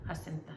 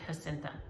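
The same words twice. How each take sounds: First: The name begins with an H sound. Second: The name begins with an H sound.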